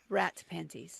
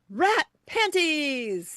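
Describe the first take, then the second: First: It is said flatly, without excitement. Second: It is said with more excitement.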